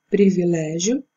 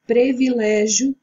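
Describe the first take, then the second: First: Said in the usual way. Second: "Privilégio" as "previlégio", e in the first syllable; wrong form. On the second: Shown as a demonstration. Teacher shows students the incorrect form, previlégio. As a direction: say "Privilégio" as pre-vi-lé-gio. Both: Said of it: "o correto é privilégio".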